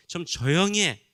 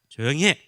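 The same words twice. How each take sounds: First: Said in the usual way. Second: Loud rebuke to shut him up; sharp scolding. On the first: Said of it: "이렇게 부드럽게 이야기한 것이 아니라". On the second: Retold or imitated. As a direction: snap it at him, louder. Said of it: "부드럽게 이야기한 것이 아니라". (큰 소리로 꾸짖듯이)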